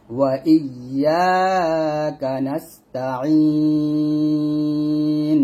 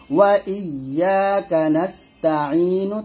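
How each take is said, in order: First: নাস্তাইন with a long held I closing on N; sustained নাস্তাইন, closed on N; stopping form. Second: নাস্তাইনু with a short U released at the end; chanted নাস্তাইনু, left open at the end; unpaused reading. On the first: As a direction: chant slowly, stretch the last syllable of নাস্তাইন and stop on N. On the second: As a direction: recite slowly, ending নাস্তাইনু on a short "nu". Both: Shown as a demonstration. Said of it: "থামলে হবে".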